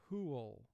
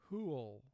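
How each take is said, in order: The two takes are said the same way.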